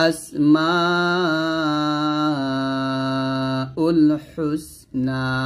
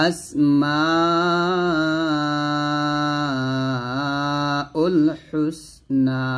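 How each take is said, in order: No difference in how they are said.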